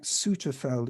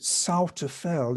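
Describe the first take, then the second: First: The name is said as it is spelled. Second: The name is said in the local pronunciation. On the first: This is how the written name suggests it is said. "it looks like" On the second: This is how people from the area say it. "the locals may pronounce it"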